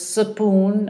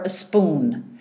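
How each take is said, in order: First: A short vowel separates the s and p. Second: A short vowel comes before the s.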